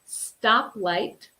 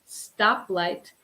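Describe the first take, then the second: Both takes have the same delivery.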